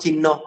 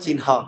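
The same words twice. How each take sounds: First: The h sound comes before the n sound. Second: The n sound comes before the h sound. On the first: The speaker calls it wrong. "আমরা বলি যে চিহ্ন, এটা কিন্তু চিহ্ন নয়" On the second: The speaker calls it right. "এটা হবে চিহ্ন"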